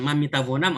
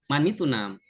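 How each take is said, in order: First: The verb is said in full, with four syllables. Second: The verb is shortened to two syllables, mitunam. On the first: The speaker sounds like a beginner. The speaker calls it wrong. "ah ini baru belajar bahasa Farsi ini" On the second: The speaker sounds like a fluent speaker. The speaker calls it right. "kamu bisa bahasa Farsi betul-betul lancar atau tidak lancar dari sini"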